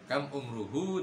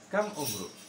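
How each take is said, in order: First: The last word ends with a final vowel. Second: The last word ends on a consonant.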